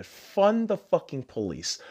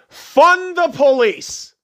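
First: Muttered slogan. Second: Shouted slogan. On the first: Repeats slogan, then shouts it. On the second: Repeats slogan louder. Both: Real, not acted.

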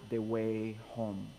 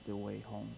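First: Slow, lower "the Way Home"; title announcement. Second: Said in the usual way. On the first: Real, not acted. Pastor announcing the sermon title slowly. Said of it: "announcing sermon title". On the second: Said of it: "repeated title".

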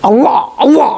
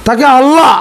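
First: আল্লাহ with a long held double l, set apart from normal talk; mock correct pronunciation. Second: Said in the usual way. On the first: Speaker mimics the cleric correcting Nawshad's আল্লাহ, mock careful pronunciation. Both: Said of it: "উচ্চারণ ঠিক না আর কি".

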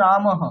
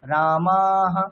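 First: রামহ quick with short ma; wrong short vowel. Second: রামাহা very slow with long ā; drawn-out vowel. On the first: Teacher showing the wrong short রামহ. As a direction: clip the ma in রামহ. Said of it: "এমন নয় কিন্তু". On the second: Teacher contrasting right রামাহা with wrong রামহ, slow. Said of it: "মাটা আগে টানবো". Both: Shown as a demonstration.

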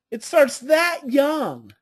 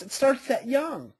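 First: Slow down and press "starts"; slow emphatic repeat. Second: Said in the usual way. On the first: Shown as a demonstration. Speaker repeating to listeners for weight, slow emphasis.

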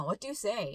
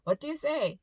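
First: Firm, pressing question with stress on you; imitating a scolding mom. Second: Scolding, a touch annoyed, stress on say; mother scolding her son after he bumped a stranger, mildly angry tone. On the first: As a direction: mom pressing her phone-distracted son to apologize, firm scolding. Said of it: "아들에게 막 다그치는 것처럼". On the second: Retold or imitated. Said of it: "이렇게 약간 화가 난".

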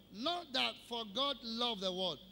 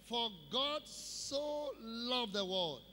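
First: Said in the usual way. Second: Slow, weight laid on "so" in "For God so loved the world"; "so" stretched and emphasised, the rest slowed; stress on so. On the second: Shown as a demonstration. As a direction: lean into "so" and draw the whole line out slowly. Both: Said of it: "That emphasis of so".

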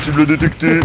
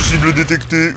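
First: Flat robotic readout; toy robot voice. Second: Flat machine announcement; toy robot voice. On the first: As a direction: repeat it like a robot. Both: Pretend. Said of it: "je suis un robot".

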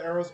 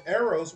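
First: Said in the usual way. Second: A louder, insistent call of Arrows. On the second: Real, not acted. Impatient gamer calling for arrows.

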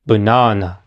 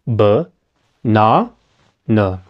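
First: "banana" as one word, stress on the middle NA; "banana" joined up, middle syllable strongest. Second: "banana" broken into three separate low syllables with pauses; "banana" in three spaced-out beats. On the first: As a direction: say "banana" low, weak schwas around a long strong NA. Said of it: "lo voy a decir otra vez". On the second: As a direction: say "banana" as buh, NA, nuh, one at a time. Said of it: "Esta palabra tiene tres partes". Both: Shown as a demonstration.

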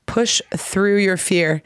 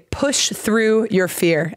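First: Slow repeated phrase. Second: Slow and deliberate, x0.6; slow teaching phrase. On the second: To a Brazilian student, slow clear teaching read. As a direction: spell out the phrase for a learner. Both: Shown as a demonstration. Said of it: "in English we say".

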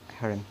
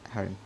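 No difference in how they are said.

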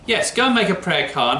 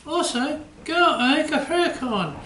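First: Said in the usual way. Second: Much higher puppet dog voice; the puppet chimes in eagerly. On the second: Acted. Puppet George repeats the suggestion.

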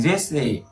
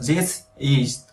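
First: "this is" run together as thi-sis; linked sounds. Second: THIS and IS said slowly apart; separated words. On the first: Teacher showing students how sounds join, linked "this is". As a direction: link the S of "this" onto "is". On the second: Teacher showing students the words before linking, "this is" unlinked. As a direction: leave a gap between "this" and "is". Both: Shown as a demonstration. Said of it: "đối âm vào thành this is".

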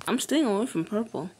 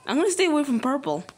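First: Said in the usual way. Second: Hurried. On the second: Real, not acted.

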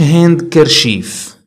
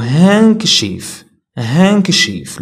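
First: هاند كرشيف spelt out as "hand-ker-sheef"; sounded D and R. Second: هانكشيف as "hank-sheef", no D or R; silent D. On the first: Teacher showing the mistake to avoid, every letter sounded. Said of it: "ما كنقولوش". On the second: Teacher repeating the correct word for learners, silent D. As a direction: glide from "han" straight into K in هانكشيف. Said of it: "كنقولوا هانكشيف". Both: Shown as a demonstration.

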